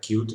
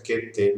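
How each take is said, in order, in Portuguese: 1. Soa como a palavra em inglês cute. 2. É dito como dois nomes de letras separados. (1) "Qt é a pronúncia indicada pelos desenvolvedores" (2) "aqui no Brasil a gente termina encontrando mais frequentemente a pronúncia Qt mesmo"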